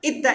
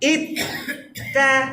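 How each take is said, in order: First: The two letter sounds run together without a break. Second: The two letter sounds are split by a break. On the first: The speaker calls it wrong. "একসাথে না আবার ... এরকম না" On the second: The speaker calls it right. "ভেঙে ভেঙে ... প্রত্যেকটা লেটারকে আলাদা করতে পারেন"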